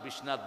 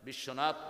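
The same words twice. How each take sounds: First: The name is said in a Sylheti accent. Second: The name is said in a standard Bengali accent.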